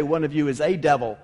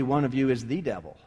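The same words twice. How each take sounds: First: "a" said as a long "ay"; stress on A. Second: "the" said as "thee"; stress on THE. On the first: Preacher contrasts the wording for listeners, stressing "a" as "ay". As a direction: lean on "a", pronounced "ay", in a lower voice. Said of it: "he doesn't even say". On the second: Preacher corrects the wording for listeners, stressing "the" as "thee". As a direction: lean on "the", pronounced "thee", low and quick. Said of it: "Should probably be". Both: Shown as a demonstration.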